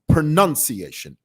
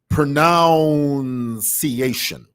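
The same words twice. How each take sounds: First: The second syllable sounds like 'nun'. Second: The second syllable sounds like 'noun'. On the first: The speaker calls it right. "It's pronunciation. N U N" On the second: The speaker calls it wrong. "It is not pronunciation"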